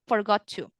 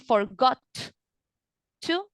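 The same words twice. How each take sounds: First: The T of forgot is dropped and linked. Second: The T of forgot is clearly pronounced. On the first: The speaker calls it right. "you're going to link" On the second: The speaker calls it wrong. "Instead of saying"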